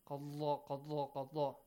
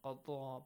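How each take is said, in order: First: The middle consonant has a vibrating quality. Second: The middle consonant sounds like a doubled d. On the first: "a kind of vibrating sound also it has" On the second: "sometimes it has like a double dal"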